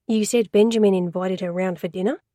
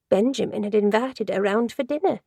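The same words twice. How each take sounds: First: Lightly voiced calm man steering her back; a hint of a patient investigator; Ash, patient questioner. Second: Lightly voiced chatty office lady telling it; a hint of the gossipy secretary; Joyce, gossipy secretary. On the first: Ash nudging Joyce back on topic, calm and even. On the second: Secretary Joyce telling Ash the story, lightly voiced gossip. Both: A narrator's reading.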